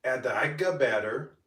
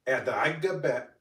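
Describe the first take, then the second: First: Agga batter said whole, both syllables; full word. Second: Agga ba- broken off mid-word; cut-off word. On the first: Creator retakes the line, saying batter in full. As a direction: finish the word batter cleanly. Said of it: "I was supposed to say add the agga batter". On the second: Creator flubs batter in her voiceover, cut off. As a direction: stop short at ba- of batter. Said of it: "but then I said bat". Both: Shown as a demonstration.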